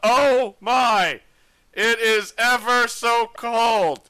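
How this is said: The line is delivered in a stiff, formal manner.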